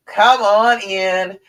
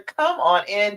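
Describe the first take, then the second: First: Slow and a bit louder, stretched out; slow drawn-out invitation. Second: Said in the usual way. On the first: Shown as a demonstration. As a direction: draw out the words warmly and slowly. Repeats invitation to breathe together.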